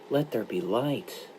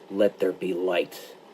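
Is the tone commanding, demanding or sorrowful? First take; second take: sorrowful; demanding. First: It is said as a sorrowful request. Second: It is said as an insistent demand.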